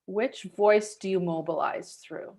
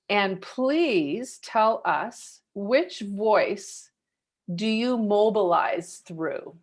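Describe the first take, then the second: First: Said in the usual way. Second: Each word drawn out slowly; slow, deliberate question. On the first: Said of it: "host repeats the question". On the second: Shown as a demonstration. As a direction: lay the question down word by word so it sinks in. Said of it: "host stresses the key question".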